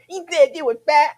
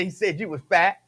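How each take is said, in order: First: High, loud mock little-kid voice. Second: Said in the usual way. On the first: Little kid telling mama about an insult, high childish voice. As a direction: play an indignant child tattling, pitched way up. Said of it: "talked like that as a little kid". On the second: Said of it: "I was a little kid".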